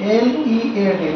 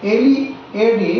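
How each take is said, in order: Both takes have the same delivery.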